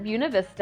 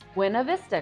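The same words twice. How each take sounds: First: The name is pronounced the local Colorado way. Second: The name is pronounced as in Spanish. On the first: This is how people who live there say it. "locals pronounce it" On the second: This is how Spanish speakers would read it. "familiar with the pronunciation of Spanish words"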